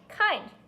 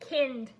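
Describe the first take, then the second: First: The vowel is said long, like in 'find'. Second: The vowel is said short, like in 'kin'. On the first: The speaker calls it right. "I N D says the eind sound" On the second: The speaker calls it wrong. "Does that make sense? No"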